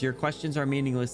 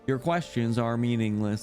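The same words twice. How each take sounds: First: It is read in the speaker's ordinary voice. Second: It is read in a put-on character voice.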